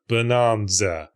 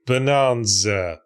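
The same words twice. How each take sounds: The two takes are said the same way.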